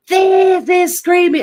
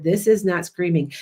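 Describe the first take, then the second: First: Very high, slow, loud scream; drawn-out high shriek demo. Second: Said in the usual way. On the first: Shown as a demonstration. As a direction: scream it to show what screaming is. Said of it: "And I'm screaming". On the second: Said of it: "I said".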